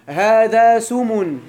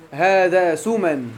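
First: Slow, loud demo with سمن as "sumun"; dropped-alif nominative. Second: Slow demo with سمن as "suman"; alif-maqsura nominative. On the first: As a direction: end سمن in a clear -un. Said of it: "في حالة الرفع والجر كتقول". (نطق سمن ببطء بضم آخرها: سُمُن) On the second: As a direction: end سمن in a clear -an. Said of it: "والذي بالألف كتقول سمن". (نطق سمن ببطء بفتح آخرها: سُمَن) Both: Shown as a demonstration.

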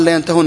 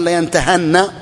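First: Teacher quotes the verb to students, ha voiced with u; damma on the ha. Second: Ha changed to an a sound, slowly; fatha on the ha. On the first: Grammar teacher citing the real form, damma on ha. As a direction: say layantahunna with u after the ha. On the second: Teacher shows students the hypothetical form, fatha on ha. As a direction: say layantahanna with a after the ha. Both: Shown as a demonstration. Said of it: "لو قال لينتهن".

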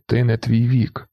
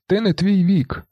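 First: Slow, restrained repeat of a slogan; drawn-out follower's echo. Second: High-pitched cry at everyday volume; understated yell. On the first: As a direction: repeat it slowly, in an unraised voice. Monkey echoes the mechanic's slogan. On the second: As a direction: call out the slogan in a raised pitch. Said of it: "механік волає". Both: A narrator's reading.

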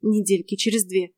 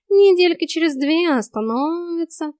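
First: Grumbling. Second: High, slow, stretched cat drawl; talking cat. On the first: Heroine echoes the cat's estimate, grumbling. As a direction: repeat it sourly in an everyday pitch. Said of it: "проворчала я". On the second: Cat promises the hair will stop growing, drawling. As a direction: draw it out high, making light of it. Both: A narrator's reading.

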